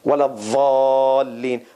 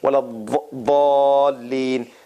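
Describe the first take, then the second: First: The emphatic consonant is said with a buzzing sound. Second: The emphatic consonant is said without a buzzing sound. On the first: "they pronounce it with a Z sound, with a hissing sound" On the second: "there's no Z sound in this"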